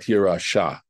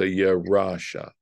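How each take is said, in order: First: The stress is on the last syllable. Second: The stress is on the middle syllable. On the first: The speaker calls it wrong. "where it would fall on the last syllable" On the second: The speaker calls it right. "they put the stress on the um middle syllable"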